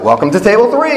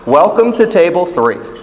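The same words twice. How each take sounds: First: It is said with lively enthusiasm. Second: It is said flatly, without enthusiasm.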